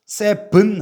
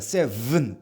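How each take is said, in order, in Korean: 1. 가운데 자음은 또렷한 v가 아니에요. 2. 가운데 자음은 또렷한 v예요. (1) "seven 하면 안 돼요" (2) "v라고 발음해야 돼요"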